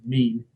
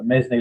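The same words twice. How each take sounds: First: MEAN as one syllable, rhyming with "seen"; MEAN, just like the everyday word; correct pronunciation. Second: MESNE said as two syllables, "MEZ-nee"; alternative pronunciation. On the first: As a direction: say MEAN with a long "ee" and no S sound. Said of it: "but it is pronounced mean". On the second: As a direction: sound out the S in MESNE, ending in "ee". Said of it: "as some people like to pronounce it". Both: Shown as a demonstration.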